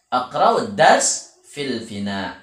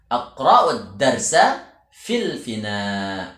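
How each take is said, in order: First: The noun is cut short without its ending. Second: The noun keeps its full formal case ending.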